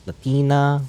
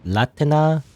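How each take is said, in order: First: "Latina" said luh-TEE-nuh, stressed in the middle; second-syllable stress. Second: "Latina" said LAT-uh-nuh, stressed on the first syllable. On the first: Gamer testing another way to say the name, "Latina" as luh-TEE-nuh. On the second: Gamer trying out an ally's name, "Latina" as LAT-uh-nuh. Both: Shown as a demonstration. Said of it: "I always pronounce her name wrong".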